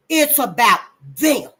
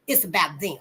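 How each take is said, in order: First: Slow, louder hit on "them"; emphatic repeat. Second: Said in the usual way. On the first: Real, not acted.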